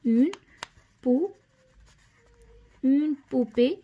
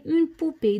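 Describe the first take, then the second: First: "اون", a long pause, then "بو" alone; broken-up dictation. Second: Said in the usual way. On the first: Shown as a demonstration. Teacher writing the word for pupils, piece-by-piece "اون بو".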